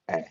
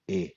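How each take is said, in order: First: A flat front vowel, as in cat. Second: A gliding 'ay' vowel, as in cake. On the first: "never like ah, as in cat" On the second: "never like eh, as in cake"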